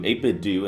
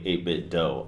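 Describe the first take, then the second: First: The last word ends with an 'oo' vowel. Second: The last word ends with an 'oh' vowel. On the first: "some people say do" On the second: "some people say eight-bit dough"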